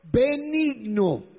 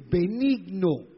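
First: "benigno" stretched very slowly, pitched up; emphatic stretched word. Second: Said in the usual way. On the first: Shown as a demonstration. Preacher drives the virtue home to congregation, "benigno" slow, high and emphatic. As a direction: draw out each syllable of "benigno", high and firm.

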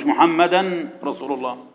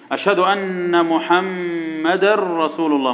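First: "محمدا رسول" as muhammadan, held n, then rasul; wrong unmerged n. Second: "محمدا رسول" slowly as muhammadar-rasul, r held; correct merging. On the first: Teacher showing what not to say, "محمدا" ending in a clear n. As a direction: sound the n apart before "رسول". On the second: Teacher showing the right adhan, slow, "محمدا رسول" merged into r. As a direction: melt the n into a long r in "محمدا رسول". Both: Shown as a demonstration. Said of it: "مش".

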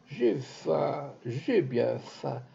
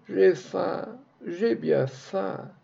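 First: Monotone plaint. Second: Higher, slow, plaintive wail; beggar's plaint. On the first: Beggar in the street keeps moaning his slow monotone plaint. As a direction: repeat it flat and slow like a tired beggar. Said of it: "sa plainte monotone". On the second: Beggar in the street moaning up at the house, slow plaintive wail. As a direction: drag it out like a thin beggar's lament. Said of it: "la plainte du pauvre montait toujours grêle et pleura". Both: Acted.

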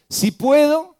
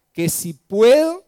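First: "Si puedo" flung out much higher and louder as a rising question; indignant rising "Si puedo"; incredulous "si puedo". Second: Incredulous echo. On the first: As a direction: echo the doubt back in disbelief. Preacher repeats Jesus' retort. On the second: Jesus echoes the father's doubt. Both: Acted.

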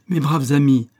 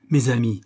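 First: Mes braves amis, raised and much louder; louder repeat. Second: Said in the usual way. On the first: Acted. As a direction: push the repeat harder. (mes braves amis, répété plus fort)

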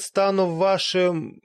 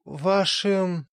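First: Pompous words slowing to a stall; slowing grand vampire. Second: Repeated word fading off, deflated; faltering vampire. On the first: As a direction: drag it out as the boast falters. Speech falters on seeing them. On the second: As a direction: lose nerve mid-boast and trail away. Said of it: "но вдруг затих". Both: Acted.

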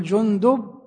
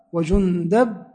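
First: "جندب" with a clear short u after the d; damma on the dal. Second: "وجندب" with an open short a after the d; fatha on the dal. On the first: Teacher showing students a name's vowelling, "جندب" pronounced jundub. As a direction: say "جندب" as jun-DUB, with a u on the dal. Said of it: "بضم الدال". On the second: Teacher showing the other valid vowelling, "وجندب" pronounced wa-jundab. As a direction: say "وجندب" as wa-jun-DAB, with an a on the dal. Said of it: "بفتح الدال". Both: Shown as a demonstration.

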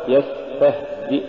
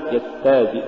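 First: Said in the usual way. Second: يستهزئ with the هـ swallowed, almost dropped; faulty ha. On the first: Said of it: "والصواب". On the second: Shown as a demonstration. Teacher showing a recitation error, ha lost in يستهزئ. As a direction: lose the breath of ه in يستهزئ. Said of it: "تقرأ لحنا".

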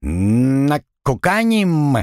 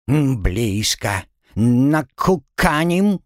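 First: Slow squawked parrot word; bird folk. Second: Slow drawn parrot voice; bird folk. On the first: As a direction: drag it out like a parrot. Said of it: "внезапно чирикнул Пэт". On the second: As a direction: drawl it like a parrot. Parrot squawks answer. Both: Acted.

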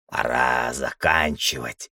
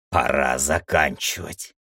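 First: Low, slow grumble; old man's grumble. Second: Low, lightly voiced old man; old man repeating. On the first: Old man alone by the Demiurge's core, grumbling. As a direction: grumble it to yourself, dragging the words. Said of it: "проворчал старик". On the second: Old man about to launch the last protocol, low voice. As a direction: say it low, as a resolve to oneself. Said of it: "повторил старик". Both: A narrator's reading.

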